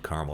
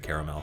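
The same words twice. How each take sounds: First: The word is said with two syllables. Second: The word is said with three syllables. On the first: This is the upper Midwestern way of saying it. "we say it caramel" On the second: This follows the spelling of the word. "instead of caramel"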